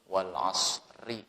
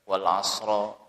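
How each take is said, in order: First: The word ends with an i vowel. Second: The word ends with an a vowel. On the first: The speaker calls it right. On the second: The speaker calls it wrong. "tidak boleh dibaca"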